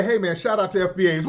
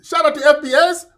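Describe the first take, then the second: First: Said in the usual way. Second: Put-on high, loud Nigerian accent; exaggerated, high-pitched Nigerian objection; mock Nigerian accent. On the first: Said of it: "when we say". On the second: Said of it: "Mister Nigerian".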